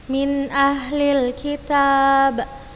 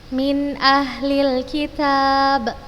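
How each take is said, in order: Both takes have the same delivery.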